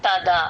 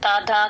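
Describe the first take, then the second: No difference in how they are said.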